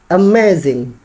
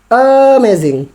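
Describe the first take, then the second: First: The stressed syllable is said without exaggeration. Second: The stressed syllable is heavily exaggerated.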